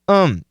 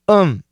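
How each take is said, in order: First: The th is dropped, leaving just um. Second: The th is dropped, leaving just um.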